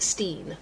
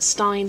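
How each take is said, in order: First: The vowel sounds like 'ee'. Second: The vowel sounds like 'eye'. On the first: "some pronounce it Steen" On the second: "Some pronounce it Stein"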